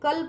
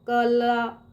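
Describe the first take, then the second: First: The word ends on the consonant sound. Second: The word ends with an added vowel sound. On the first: The speaker calls it right. "कल पढ़ेंगे ना" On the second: The speaker calls it wrong. "कला इसे नहीं पढ़ेंगे"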